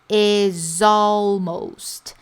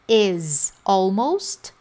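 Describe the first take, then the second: First: The two words run together as one. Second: The two words are said separately. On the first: "parece até uma palavra só" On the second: "ela pode pronunciar the year is almost over"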